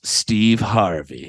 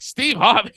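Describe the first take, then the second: First: Low, slow, proud reveal; drawn-out Steve Harvey, pleased with herself; drunk lady's answer. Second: High, disbelieving echo of the name; high mock-incredulous Steve Harvey; girl's deadpan echo. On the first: Retold or imitated. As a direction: lean into the name slowly, sure it will land. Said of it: "No, she goes". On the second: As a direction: repeat it back high in disbelief. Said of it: "the girl was just like".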